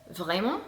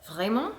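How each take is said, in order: Both takes have the same delivery.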